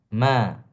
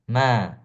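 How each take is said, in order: No difference in how they are said.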